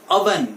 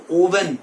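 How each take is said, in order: First: "oven" as UH-ven; short uh opening on "oven"; right oven. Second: "oven" as OH-ven; long O opening on "oven"; wrong oven. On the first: Teacher gives students the correction, uh onset. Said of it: "The right pronunciation for this word". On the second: Teacher rejects the common form, O onset. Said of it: "it is not oven". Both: Shown as a demonstration.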